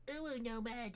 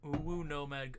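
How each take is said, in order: First: High cute uwu voice; cutesy baby talk. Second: Said in the usual way. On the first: Shown as a demonstration. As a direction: squeak it like a kitten.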